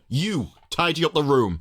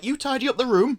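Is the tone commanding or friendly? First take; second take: commanding; friendly. First: It is said in a bossy, commanding tone. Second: It is said in a gentle, friendly tone. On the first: The speaker is giving orders from above. "she's here to command and order" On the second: The speaker is there to help. "The older one is like"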